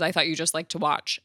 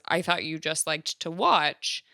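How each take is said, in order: First: The line is said flatly, without that inflection. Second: The line has a strongly inflected, expressive melody. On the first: The speaker calls it right. "but says" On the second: The speaker calls it wrong. "not how I just said it with the inflection that I said it"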